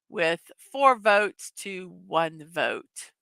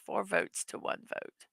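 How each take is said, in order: First: Slow, deliberate result read; slow announcement. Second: Soft whispered echo of the score; whispered repeat. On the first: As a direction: spell out the score slowly. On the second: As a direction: whisper it as a quiet aside. Repeats result. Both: Real, not acted.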